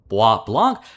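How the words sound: The name is pronounced the French way. "the French name of it, you know, with my not so great French pronunciation"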